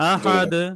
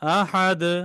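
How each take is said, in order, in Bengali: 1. শেষের ব্যঞ্জনটি একটু ধাক্কা দিয়ে ছেড়ে দেওয়া হয়। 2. শেষের ব্যঞ্জনটি একটু ধাক্কা দিয়ে ছেড়ে দেওয়া হয়।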